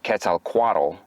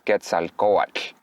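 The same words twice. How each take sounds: First: The tl is a plain t then l. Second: The tl has air blown past the tongue sides. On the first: The speaker calls it wrong. "So instead of" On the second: The speaker calls it right. "you put the tongue on top of the roof of your mouth and you blow air to the sides"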